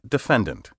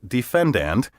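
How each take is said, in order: First: The word is said in a relaxed everyday way. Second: The word is carefully overpronounced, every syllable distinct. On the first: It is the common pronunciation everyone understands. The speaker calls it right. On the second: The speaker sounds pompous and pretentious. The speaker calls it wrong. "over-refined and pretentious"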